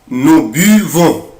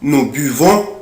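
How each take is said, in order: First: It is said slowly. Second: It is said at normal speed.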